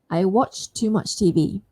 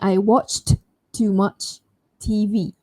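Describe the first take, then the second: First: The final t of watched is dropped. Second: The final t of watched is pronounced. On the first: "I can drop it if I want to sound smooth" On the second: "Instead of me"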